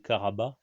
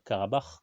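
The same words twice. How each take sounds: First: The final consonant is left silent. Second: The final consonant is clearly sounded. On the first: This follows the Turkish rule that the letter is silent. "ça se prononce pas" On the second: This is the usual way people say it. "comme tout le monde"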